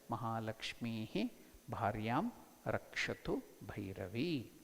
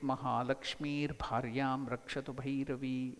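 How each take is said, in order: First: Mahalakshmi ends without an R before Bharyam. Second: An R sound links Mahalakshmi to Bharyam. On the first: The words are kept separate. "When you separate it" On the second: The words are joined together. "when you combine it"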